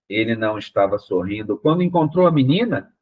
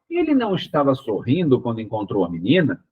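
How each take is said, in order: First: The question tune appears only at the end. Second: The question tune is heard from the start. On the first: The reader did not see the question coming. The speaker calls it wrong. "Então fica uma coisa completamente sem pé nem cabeça" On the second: It asks a question. The speaker calls it right. "eu tenho que mudar o tom de voz lá no início"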